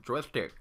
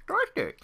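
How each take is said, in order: First: Said in the usual way. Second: Very high squeak on joystick; silly squeaky voice. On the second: Shown as a demonstration. Repeats word playfully.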